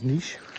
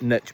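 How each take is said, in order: First: The word is said a non-American way. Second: The word is said the American way. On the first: The speaker calls it right. "The proper way of saying it" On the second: The speaker calls it wrong. "as the Americans say"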